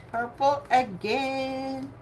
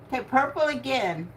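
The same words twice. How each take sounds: First: Purple again stretched out slowly and softly; slow, soft, deliberate repeat of the colour; drawn-out bingo call. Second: Said in the usual way. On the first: Shown as a demonstration. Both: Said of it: "calling bingo numbers".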